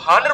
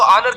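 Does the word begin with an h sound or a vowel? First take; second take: h sound; vowel. First: The word begins with an h sound. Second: The word begins with a vowel sound. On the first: The speaker calls it wrong. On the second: The speaker calls it right.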